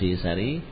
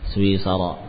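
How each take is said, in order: First: The word ends with an i sound. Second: The word ends with an a sound. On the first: The speaker calls it wrong. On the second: The speaker calls it right.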